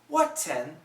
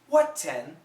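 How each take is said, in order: First: The T is fully released between the vowels. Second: The T is fully released between the vowels.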